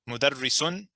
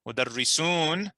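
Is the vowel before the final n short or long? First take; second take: short; long. First: The vowel before the final n is short. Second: The vowel before the final n is long. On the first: It means one teacher. "with a is a tanween" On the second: It means teachers. "without pronouncing the fatha at the end"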